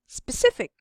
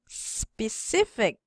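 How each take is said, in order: First: The word is said very quickly. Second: The word is said slowly. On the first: "the fastest" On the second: "in a slow, slowly"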